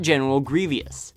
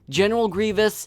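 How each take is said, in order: First: Grievous is said with three syllables. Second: Grievous is said with two syllables. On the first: The speaker calls it wrong. "not General Grievous" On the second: The speaker calls it right.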